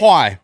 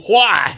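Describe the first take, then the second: First: The word starts with a plain w sound. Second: The word starts with a breathy h sound.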